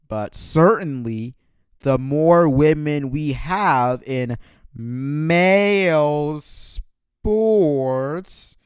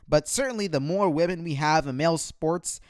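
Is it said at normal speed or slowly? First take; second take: slowly; normal speed. First: It is read more slowly. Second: It is read at a normal pace.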